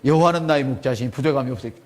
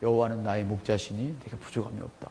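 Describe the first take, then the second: First: It is said in a somewhat loud voice. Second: It is murmured quietly under the breath.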